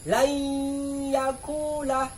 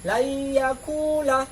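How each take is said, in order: First: It is read with a held nasal hum. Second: It is read without a nasal hum. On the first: The speaker calls it right. "dibaca dengan mendeng mendengung gitu" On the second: The speaker calls it wrong. "tidak didengungkan"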